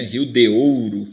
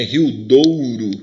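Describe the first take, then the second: First: "Rio de Ouro" with "de" separate from "Ouro"; words kept apart. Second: "Rio Douro" with de and Ouro fused, drawn out; words run together. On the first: Teacher showing the unjoined form, "de. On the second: Teacher showing how you join words, "Douro" fused and stretched. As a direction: join it as "Douro", slow and emphatic. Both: Shown as a demonstration. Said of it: "você junta".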